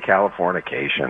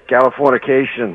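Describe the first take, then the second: First: It is said with a standard American accent. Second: It is said with a New York accent. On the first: The speaker calls it wrong. "Most people say Californication or something like that" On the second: The speaker calls it right. "I love you say Californication"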